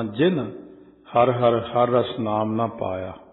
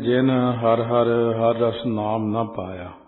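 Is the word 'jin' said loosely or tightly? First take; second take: tightly; loosely. First: The word 'jin' is said heavier and tighter. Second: The word 'jin' is said lightly and loosely. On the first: "ਇੱਥੇ ਥੋੜਾ ਕੱਸ ਕੇ ਪਾਠ ਬੋਲਣਾ" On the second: "ਰਹਿ ਰਾਸ ਵਿੱਚ ਪੜ੍ਹਦੇ ਹਾਂ"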